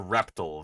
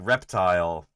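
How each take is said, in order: First: The word uses a dated mid-century pronunciation. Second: The word uses today's common pronunciation. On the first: This way is rarely heard anymore. "You don't hear reptile very often anymore" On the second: This is how most people say it now. "that's been the pronunciation that's really won out"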